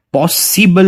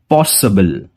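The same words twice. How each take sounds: First: पॉसिबल with a clear इबल ending; wrong take. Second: पॉसिबल ending in a reduced अबल; पॉसिबल with the ि swallowed; right take. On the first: Teacher showing students the wrong way, mock wrong. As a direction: mistaken पॉसिबल, सि fully sounded. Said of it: "नहीं होगा". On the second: Teacher giving students the correct form, model. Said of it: "ये". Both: Shown as a demonstration.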